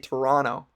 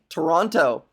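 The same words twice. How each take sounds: First: The second T is dropped, sounding like N. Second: The second T is clearly pronounced. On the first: "don't pronounce the second T. That's an N, another N" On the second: "Hard T"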